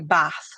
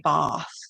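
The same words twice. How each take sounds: First: The word is said in a Yorkshire accent. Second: The word is said without a Yorkshire accent. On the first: "when I say bath" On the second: "they don't have a Yorkshire accent"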